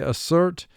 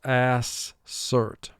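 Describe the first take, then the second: First: The first vowel is reduced to a weak sound. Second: The first vowel is said as a full vowel. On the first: This is the everyday conversational pronunciation. "In conversation, we say assert" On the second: This is a careful pronunciation used to help with spelling. "For spelling, we pronounce the word mentally to ourselves"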